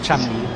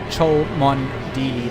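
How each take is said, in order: First: The middle is dropped, giving just two syllables. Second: Every letter is sounded, giving four syllables. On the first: The speaker calls it right. "you actually pronounce it Chum Lee" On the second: The speaker calls it wrong. "spelt out phonetically"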